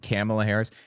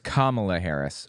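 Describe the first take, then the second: First: The first name is said in an altered way. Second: The first name is said in the standard way. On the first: It mimics how someone else said the name. The speaker calls it wrong. "notice how he like mispronounces her name" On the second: It is how the name is meant to be said. The speaker calls it right. "It's Kamala Harris"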